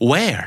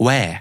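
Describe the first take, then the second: First: WHERE with the final R sounded; American-style WHERE, clear r-sound. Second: WHERE with the final R dropped; British R. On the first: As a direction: curl the R ending WHERE. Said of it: "เขาจะเน้นตัว R เยอะ". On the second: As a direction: copy a British WHERE, no r-sound. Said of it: "say it after you?". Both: Shown as a demonstration.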